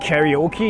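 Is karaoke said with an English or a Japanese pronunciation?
English. It is said with an English-style pronunciation. "why English speakers say karaoke"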